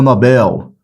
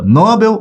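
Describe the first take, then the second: First: "Nobel" stressed on BEL, drawn out; slow "Nobel" as an oxytone, no-BÉL; correct stress noBEL. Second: "Nobel" stressed on NO, drawn out; slow "Nobel" as a paroxytone, NÓ-bel; common stress NObel. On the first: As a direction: stretch the last syllable of "Nobel". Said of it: "Essa palavra é oxítona". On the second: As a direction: stretch the first syllable of "Nobel". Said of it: "a maioria fala prêmio Nobel". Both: Shown as a demonstration.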